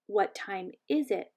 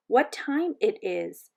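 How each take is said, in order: First: Slow correction, leaning on "is it"; correcting. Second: Slow, careful, uncertain learner; learner's halting question. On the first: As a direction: model "is it" clearly, a little softer. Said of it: "Saya corrected her". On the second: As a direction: ask it word by word, haltingly. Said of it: "got it right the second time". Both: A narrator's reading.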